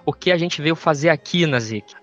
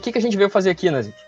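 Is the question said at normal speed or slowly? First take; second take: slowly; normal. First: It is said slowly and deliberately. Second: It is said at a normal speed.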